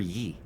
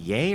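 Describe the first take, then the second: First: The vowel rhymes with see. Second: The vowel rhymes with day. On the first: "I've always pronounced it yee, like [name]" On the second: "pronounce it yay? Like Kanye?"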